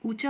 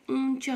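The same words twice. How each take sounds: First: ऊंचा as oo-cha, purely oral vowel; denasalised ऊंचा; wrong, without nasal. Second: ऊंचा with a nasalised first vowel; nasal oon-cha for ऊंचा; correct, with nasal. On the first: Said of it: "सही शब्द है". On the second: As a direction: send the ऊं through mouth and nose. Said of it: "मुख और नाक". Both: Shown as a demonstration.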